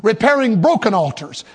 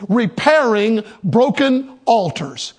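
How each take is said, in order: First: Said in the usual way. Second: Repairing broken altars, slow with weight on broken; slow emphatic title. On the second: Shown as a demonstration. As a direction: announce the title slowly, leaning on broken. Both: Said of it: "I'm preaching on this subject".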